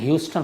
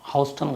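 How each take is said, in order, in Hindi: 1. पहला अक्षर 'hew' जैसा सुनाई देता है। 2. पहला अक्षर 'how' जैसा सुनाई देता है। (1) "ह्यूस्टन होता है वो" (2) "मैं हाउस्टन गलत बोलता हूँ"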